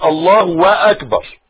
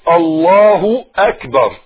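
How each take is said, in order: First: A 'wa' sound is inserted before akbar. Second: No 'wa' sound is inserted before akbar. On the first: The speaker calls it wrong. "ما تقولش الله واكبر" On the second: The speaker calls it right. "لا الله اكبر"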